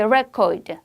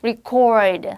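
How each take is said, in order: First: The stress is on the first syllable. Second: The stress is on the second syllable. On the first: It is used as a noun. "명사할 때는 앞에 강하게 record 이죠" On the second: It is used as a verb. "기록하다라고 할 때는 뒤로 갑니다"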